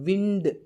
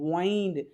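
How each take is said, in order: First: The vowel is a short 'i' sound. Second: The vowel is a long 'eye' sound. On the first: "இதே ஐஎன்டி இண்டும் இருக்குது" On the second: "ஐஎன்டினாலே ஐந்து"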